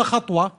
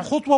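First: Other option "خطوة" as khatwa, a after خ; fatha on the kha. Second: First option "خطوة" as khutwa, u after خ; damma on the kha. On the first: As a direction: ask "خطوة" with an a in the first syllable. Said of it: "الفرق بين الضم والفتح". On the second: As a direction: offer "خطوة" with an u in the first syllable. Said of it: "جمع خطوة بالضم". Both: Shown as a demonstration.

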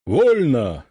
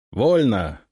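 First: Sharp, loud parade order; shouted command. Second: Repeated command. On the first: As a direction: bark it out as the commander. Ataman gives the order. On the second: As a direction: pass the order on down the line. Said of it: "дублирую я". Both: Acted.

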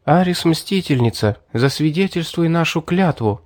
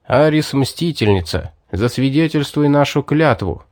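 First: Lightly voiced girl repeating a vow, higher; Мэри. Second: Hero's oath in the narrator's own register; solemn oath. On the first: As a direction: echo the oath in a slightly raised girl's voice. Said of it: "повторила мои слова Мэри". (девичий голос повыше, повторяя клятву) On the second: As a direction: invoke the goddess to witness a vow. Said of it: "произнёс я завершающие слова клятвы". (торжественная клятва) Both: A narrator's reading.

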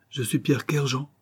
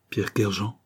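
First: Raised-pitch, insistent self-introduction; emphatic announcement. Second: Startled echo. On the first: Vagabond reveals himself to the banker, emphatic. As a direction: declare the name with feeling. Vagabond declares his name. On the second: Banker recognises the ruined man's name, faintly startled. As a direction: repeat the name with a slight start. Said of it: "ne put réprimer un léger tressaillement". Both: A narrator's reading.

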